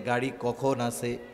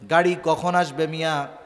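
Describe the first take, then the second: First: The question is asked calmly and casually. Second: The question is asked impatiently and urgently.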